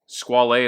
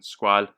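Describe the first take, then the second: First: The name is said with Italian pronunciation. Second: The name is said with French pronunciation. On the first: "is how a lot of people say it, ... the brand is now owned by Italians" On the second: "that's the French pronunciation for the word"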